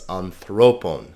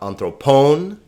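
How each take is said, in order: First: The stress is on the middle syllable. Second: The stress is not on the middle syllable. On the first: The speaker calls it right. "because thro has the accent, it is anthropon" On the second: The speaker calls it wrong. "Not anthropon"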